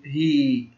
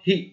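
First: هي with a drawn-out hii; long yaa. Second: هي as a quick, short hi; short kasra. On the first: Teacher showing the long sound with yaa, held hii for هي. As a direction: hold the vowel of هي long, as hii. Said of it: "الصوت الطويل وجود حروف المد". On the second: Teacher showing the short sound with kasra, brief hi for هي. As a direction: cut the vowel of هي short, just hi. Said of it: "القصير أقل من ثانية". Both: Shown as a demonstration.

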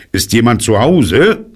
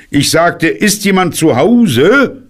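First: Higher, louder call with rising question. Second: Much higher, louder, drawn-out shout; very loud call. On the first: Bear calls into a rabbit hole, calling out. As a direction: call down a hole to whoever's home. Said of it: "steckte seinen Kopf in das Loch und rief". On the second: Bear repeats his call into the silent hole, very loud. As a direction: insist loudly, stretching the question upward. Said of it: "rief Puh sehr laut". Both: A narrator's reading.

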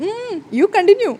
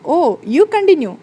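First: Sheepish. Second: Mock polite. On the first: Acted. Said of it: "അയ്യോ, അബദ്ധം പറ്റി". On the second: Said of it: "കളിയാക്കിക്കൊണ്ട്".

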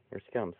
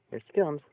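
First: Said in the usual way. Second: High and louder as the pet comes; excited high call to the arriving animal; high pet-talk greeting. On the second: Real, not acted.

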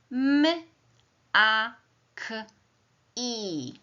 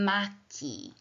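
First: "M, a, k, i" as four separate sounds, high-pitched; sounded out phonemes. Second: Said in the usual way. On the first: Shown as a demonstration. Teacher sounding out a word for pupils, phoneme by phoneme. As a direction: isolate each sound of "M, a, k, i" with pauses. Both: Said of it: "Teraz głoskujemy wyraz".

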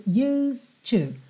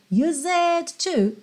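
First: "used to" as yoos-tu, no E; silent E, linked. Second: "used to" with the silent E wrongly voiced, yoo-zed too; wrongly sounded E. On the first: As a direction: run the S of "used to" straight into a T. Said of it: "Vai do S direto pro D". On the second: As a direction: say "used to" as two-syllable "use-ed", then to. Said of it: "não é pronunciado". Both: Shown as a demonstration.

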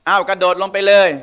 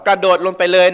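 First: Sarcastic dare. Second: Said in the usual way. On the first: Pretend. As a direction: say it like a sarcastic parent who means the opposite. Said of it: "ประชด". (แม่พูดประชดลูก เสียงสูงขึ้นเล็กน้อย) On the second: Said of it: "การที่เราสั่งว่า".

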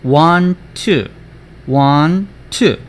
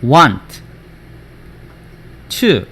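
First: Slow, linked "want to", only one t sound; words joined. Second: Full t ending "want", pause, then "to"; words kept apart. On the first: Teacher joins the two words for students, "want to" linked. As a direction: run "want to" together with one shared t. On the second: Teacher splits the words before joining them, "want" and "to" kept apart. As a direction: say "want" and "to" as two separate words. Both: Shown as a demonstration. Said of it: "합쳐지면".

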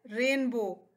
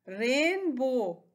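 First: Said in the usual way. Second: rainbow very slow, as रेन and बो; split into syllables. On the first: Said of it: "क्या है". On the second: Shown as a demonstration. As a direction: stretch both beats of rainbow. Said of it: "इसके कितने syllables हैं". (Rainbow को दो हिस्सों में, धीरे)

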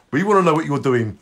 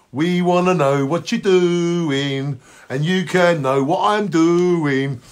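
First: Said in the usual way. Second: Chanted, slow, stretched sing-song; drawn-out chant. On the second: Pretend. Host teasing listeners about what he's doing, slow drawn-out chant. Same line repeated drawn out.

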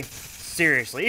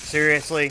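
First: Flat disbelief. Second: Incredulous. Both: Real, not acted.

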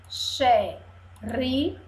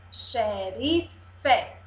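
First: "Xerife" broken into xe, ri, fe; long pauses between the syllables of "Xerife". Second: Said in the usual way. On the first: Shown as a demonstration. Teacher shows three syllables, "Xerife" pulled apart. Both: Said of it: "Três sílabas".

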